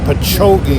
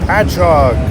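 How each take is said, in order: First: The name ends with an 'ee' sound. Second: The name ends with an 'og' sound. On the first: Someone unfamiliar with the area said it. The speaker calls it wrong. "A lot of out-of-towners mispronounce this something awful" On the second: A local said it. The speaker calls it right. "long-time Long Islanders will correct them"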